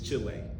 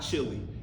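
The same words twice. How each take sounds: First: It is said with a Spanish pronunciation. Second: It is said with an English pronunciation. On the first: This is how the locals say it. The speaker calls it right. "it's Chile. That's to the Chileans" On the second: This is how the visitor said it. The speaker calls it wrong. "it's not"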